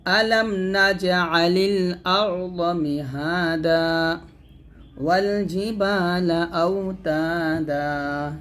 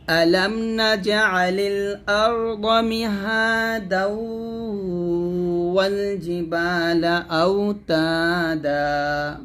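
First: Slow chant with a full stop after মিহাদা, its last vowel held one alif; stopping recitation. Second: Slow chant running মিহাদা straight into wall with no stop; joined recitation. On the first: Teacher shows students the stop with one-count madd, slow chant. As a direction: stop on মিহাদা, lengthen it by one count, then begin wall. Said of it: "এরকম টান দিতে হবে". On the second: Teacher shows students how to join two verses, slow chant. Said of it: "এরকম মিল করে পড়বে". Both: Shown as a demonstration.

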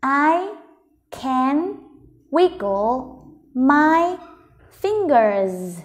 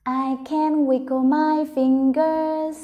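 First: "I... can... wiggle... my... fingers", very slow with pauses; word by word. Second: "I can wiggle my fingers" slow but in one connected run; joined-up slow reading. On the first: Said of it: "mình vào đọc từng từ một". (đọc rời từng từ "I can wiggle my fingers") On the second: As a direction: link the words of "I can wiggle my fingers" without pauses, still drawn out. Teacher rereads the sentence joined up. (đọc chậm liền câu "I can wiggle my fingers") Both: Shown as a demonstration.

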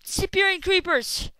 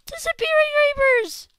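First: Louder exclaim, a bit higher; indignant shout at the game; outraged exclaim. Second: Much higher, much louder scream; outraged scream. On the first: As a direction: call it out in disbelief. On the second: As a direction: shriek it out in full disbelief. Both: Real, not acted. Outraged at vanishing creepers.

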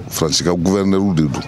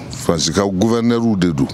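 No difference in how they are said.

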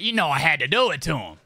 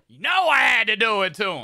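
First: Said in the usual way. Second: Boastful shout. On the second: Acted. Streamer bragging to chat about his hair, proud shout.

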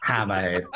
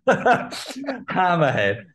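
First: Said in the usual way. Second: Slow, high Hammerhead drawn out through laughter; laughing. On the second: Shown as a demonstration. Fan naming his favourite figure, laughing and slow. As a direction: stretch the name while giggling.

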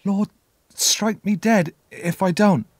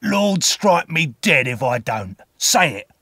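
First: Put-on high, slow, halting child's voice; small high boy's voice, haltingly obeying; frightened boy repeating. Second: Slow growling order, higher and louder; menacing growl, punched hard at the end; growled command. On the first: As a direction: repeat the oath timidly, pitched well up. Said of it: "I repeated". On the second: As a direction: growl the oath as a threatening man. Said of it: "the man growled". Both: A narrator's reading.

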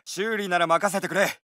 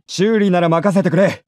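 First: Said in the usual way. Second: The same offer, louder; louder version of the offer; louder take. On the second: Acted. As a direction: call it out over the noise.

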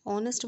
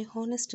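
First: ऑनेस्ट with a silent h, starting straight on the vowel ऑ; teacher models the right ऑनेस्ट, the h left silent; correct pronunciation. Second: हॉनेस्ट with a breathy h sounded at the start; teacher models the mistaken हॉनेस्ट with the h pronounced; wrong pronunciation. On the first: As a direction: say ऑनेस्ट with no h sound, opening on ऑ. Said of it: "ऑनेस्ट बोलते हैं क्योंकि ओ जो है". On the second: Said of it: "हमने हॉनेस्ट नहीं बोलना है". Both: Shown as a demonstration.

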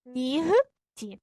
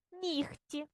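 First: Нігті in parts with a full voiced г, "NI-h-ti"; spelling pronunciation. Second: Нігті with г said as a soft х, "nikhti"; devoiced г. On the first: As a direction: read нігті as written, loud and separated. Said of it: "Пишемо ми як?". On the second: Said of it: "як парні глухі". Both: Shown as a demonstration.

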